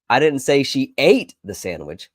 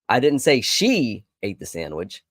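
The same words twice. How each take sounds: First: The word "ate" carries the main stress. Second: The word "she" carries the main stress. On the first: She did something else with it. "She may have packed it and stored it away for later" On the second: Someone other than her ate it. "I told you it was somebody else"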